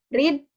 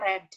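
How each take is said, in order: First: The vowel is long, rhyming with 'need'. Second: The vowel is short, rhyming with 'red'. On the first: It is the present-tense form of the verb. "Read untuk kata kerja pertama" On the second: It is the past or past-participle form of the verb. "kata kerja kedua dan ketiganya dia dibaca read"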